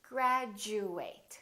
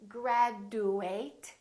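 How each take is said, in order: First: The middle consonant is a j sound. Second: The middle consonant is a plain d sound. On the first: The speaker calls it right. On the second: The speaker calls it wrong. "we don't say graduate"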